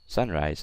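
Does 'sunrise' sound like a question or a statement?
statement. It is said flatly, like a plain statement. "So I didn't say"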